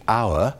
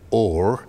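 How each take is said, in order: First: The vowel sounds like modern 'our'. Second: The vowel sounds like 'or'. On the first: "in modern English" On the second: "becoming or in the earlier version"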